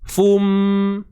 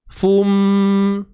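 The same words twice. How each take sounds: Both takes have the same delivery.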